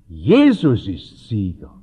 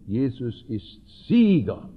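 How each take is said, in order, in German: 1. Das Wort Jesus trägt die Hauptbetonung. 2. Das Wort Sieger trägt die Hauptbetonung. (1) "Blumhardt hat betont" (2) "Wir betonen gern"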